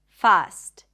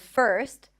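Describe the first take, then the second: First: The vowel is an open ah sound. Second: The vowel is an r-colored er sound. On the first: The speaker calls it wrong. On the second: The speaker calls it right. "Instead of first"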